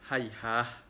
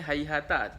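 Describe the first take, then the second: First: The word ends with an h sound. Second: The word ends with a t sound. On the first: The reciter is stopping on this word. "dia membaca dengan dengan hayhah" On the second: This is the word's original form. "asalnya hayhata"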